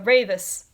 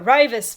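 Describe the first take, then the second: First: The first vowel sounds like 'ay'. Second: The first vowel sounds like 'eye'. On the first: The speaker calls it right. "no, no, it's uh" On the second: The speaker calls it wrong. "I pronounced Latvia's name as uh"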